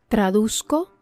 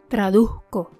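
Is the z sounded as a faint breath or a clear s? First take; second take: clear s; faint breath. First: The z is a clear s sound. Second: The z is a faint, sigh-like breath. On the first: "la traducción en español estándar" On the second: "con la pronunciación puertorriqueña"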